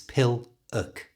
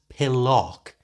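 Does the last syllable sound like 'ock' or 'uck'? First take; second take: uck; ock. First: The last syllable has a weak 'uck' vowel. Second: The last syllable has a clear 'ock' vowel. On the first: The speaker calls it right. "It's pill-uck" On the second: The speaker calls it wrong. "It's not pillock, as you might think because of that O"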